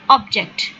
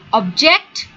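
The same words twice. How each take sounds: First: The stress is on the first syllable. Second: The stress is on the second syllable.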